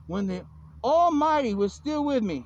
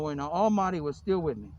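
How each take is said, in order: First: Solemn proclamation. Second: Lower, understated quote; subdued recital. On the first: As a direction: proclaim it grandly, stretching the words. Declaims a scripture-like quote. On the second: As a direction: recite it low, without the grand delivery. Same quote recited in passing. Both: Acted.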